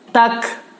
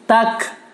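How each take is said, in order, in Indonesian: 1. Huruf k di akhir terucap dengan hembusan napas. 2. Huruf k di akhir terucap dengan hembusan napas.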